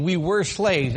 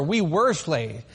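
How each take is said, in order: First: "were" pushed a little louder in we were slaves; stress on were. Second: "were" held and stressed, the line said slowly; slow down and press "were" hard. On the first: Teaching a seder group, stressing "were" in we were slaves. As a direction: lean on the word "were". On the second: Explaining Passover to guests, slowly stressing "were". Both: Shown as a demonstration. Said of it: "Emphasis on were".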